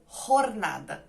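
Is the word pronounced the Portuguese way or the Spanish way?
Spanish. It is pronounced the Spanish way.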